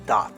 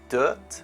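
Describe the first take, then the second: First: The vowel is an open ah sound. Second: The vowel is a central uh sound. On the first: The speaker calls it wrong. "how do some people pronounce this?" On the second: The speaker calls it right. "the correct pronunciation is dirt, the uh sound"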